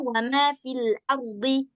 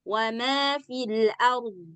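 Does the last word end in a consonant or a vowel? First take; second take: vowel; consonant. First: The last word ends with a short vowel. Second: The last word ends on a bare consonant. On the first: The reader continues on without stopping. "kalau berbaris dia kan jadinya" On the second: The reader stops at this word. "Kalau waqaf"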